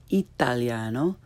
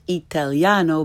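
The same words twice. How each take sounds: First: "italiano" with both a's open ah, lower; correct Italian pronunciation. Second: "italiano" with English short a in tal; learner's mispronunciation. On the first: Teacher corrects beginners, "italiano" with Italian ah. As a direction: say "italiano" as ee-tahl-YAH-no, rising. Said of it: "follow it with the correct pronunciation". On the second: Teacher shows beginners' mistake, English-sounding "italiano". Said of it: "first the way most people". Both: Shown as a demonstration.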